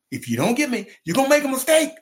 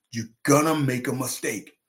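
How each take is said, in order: First: High, loud, insistent warning; heated warning. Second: Measured warning with weight on "gonna"; firm warning. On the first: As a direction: raise the voice to drive the warning home. Warning repeated, escalating, retold. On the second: First warning to scout, retold. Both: Retold or imitated.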